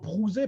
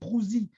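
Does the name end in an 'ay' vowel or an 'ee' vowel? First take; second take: ay; ee. First: The name ends in a standard French é vowel. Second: The name ends in a sharp, hissing i vowel. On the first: This is how an outsider would say it. "Moi, je dirais plutôt Prouzé par euh, comme ça" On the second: This is how the locals say it. "avec un i qui siffle à la fin"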